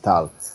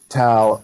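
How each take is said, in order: First: The name is said with a Hebrew pronunciation. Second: The name is said rhyming with English pal. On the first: This is how the name is said in its original language. "the actual Hebrew pronunciation is tal" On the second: This is the easy version for English speakers. "I just decided to settle into tal like pal"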